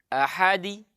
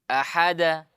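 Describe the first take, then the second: First: The final bounce leans toward an i vowel. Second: The final bounce leans toward an a vowel. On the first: "miring ke kasrah" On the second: "pantul ke fathah"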